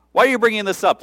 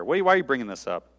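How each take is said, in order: First: Higher and louder, exasperated why; louder exasperated take. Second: Said in the usual way. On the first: Shown as a demonstration. Jesus repeating his question to Mary, higher and louder. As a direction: push the question harder the second time. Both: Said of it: "repeat said louder and higher".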